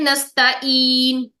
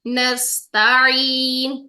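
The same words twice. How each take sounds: First: The middle consonant is a plain glottal stop. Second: The middle consonant is a throaty ain sound. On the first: The speaker calls it wrong. "हमजा की साउंड आएगी" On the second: The speaker calls it right. "हर हर्फ का अलग हक अदा करना है"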